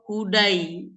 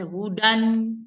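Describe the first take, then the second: First: It ends with an ai vowel sound. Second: It ends with an n sound after a. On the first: "atau hudai" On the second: "jangan kita baca hudan"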